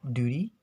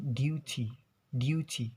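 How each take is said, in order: First: "duty" as doo-dee, t softened toward d; American pronunciation. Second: "duty" with a crisp t and a y-glide after the d; British pronunciation. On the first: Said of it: "So in American". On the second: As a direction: say "duty" the British way, as dyoo-tee. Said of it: "in British accents, they will, like, pronounce it". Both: Shown as a demonstration.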